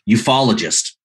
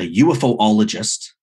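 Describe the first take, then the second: First: UFO is blended into one smooth word. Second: UFO is said as three separate letters. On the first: The speaker calls it right. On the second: The speaker calls it wrong.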